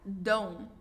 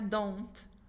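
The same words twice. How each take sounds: First: The final T is barely pronounced. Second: The final T is clearly pronounced. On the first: "Você quase nem pronuncia esse T" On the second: "Às vezes você pode pronunciar"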